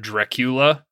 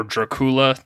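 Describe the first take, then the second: First: Said in the usual way. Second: "Dracula" as dra-KOO-la; alternate pronunciation. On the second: Shown as a demonstration. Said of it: "depending on how you want to pronounce it".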